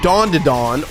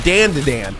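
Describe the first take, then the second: First: The vowels sound like the word dawn. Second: The vowels sound like the word cat. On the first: The speaker calls it right. "Everyone said uh, Dawn to Dawn" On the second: The speaker calls it wrong. "the way it's fucking spelled"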